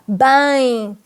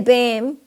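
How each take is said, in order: First: It ends in a nasal vowel, lips apart. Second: It ends with the lips closing on M. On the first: The speaker calls it right. "we play with our nose at the same time" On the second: The speaker calls it wrong. "We don't say bem, right? We don't read the M, we don't put our lips together"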